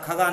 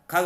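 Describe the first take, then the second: First: खगा said with a long आ added after ग; teacher stretches खगा into a final long आ sound; wrong form demo. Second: खग said short, no vowel after the final ग; teacher says खग with a clipped ending, no added आ; correct form. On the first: Teacher showing the class the common mistake, added vowel. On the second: Teacher showing the class the correct word, clean ending. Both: Shown as a demonstration. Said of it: "खगा नहीं होता".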